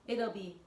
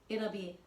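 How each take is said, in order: The two takes are said the same way.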